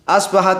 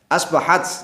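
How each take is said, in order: First: The word ends with an added 'i' vowel. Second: The word ends on a bare 't' consonant. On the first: The word runs on into the next word. "kalau dibaca lanjut asbahati ini dibaca kasroh" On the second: The word stands alone, read word by word. "kalau dimaknai satu-satu asbahat"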